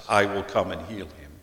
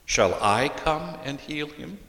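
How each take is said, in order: First: Flat falling statement, "I will come and heal him" said as a plain promise; calm declarative reading, no question in it. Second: "Shall I come and heal him?" asked with the voice lifting on "I" and rising at the end; questioning tune, pitch climbing on "him". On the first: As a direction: settle each word down to a firm fall on "him". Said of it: "translated as a declarative sentence". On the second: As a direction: ask it, leaning on "I". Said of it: "lean toward the question". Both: Shown as a demonstration.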